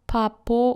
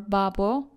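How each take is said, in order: First: It starts with p and has p in the middle. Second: It starts with b and has b in the middle. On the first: "not papo" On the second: "or babo"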